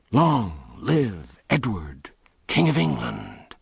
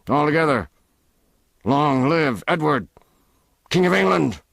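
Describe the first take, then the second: First: Slow, rumbling chorus of rough men; crowd response. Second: Higher, louder rallying call; leading a cheer. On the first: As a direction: answer as a rowdy crowd. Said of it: "thundergust from the motley crew". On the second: Ruffler leads the cheer. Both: Acted.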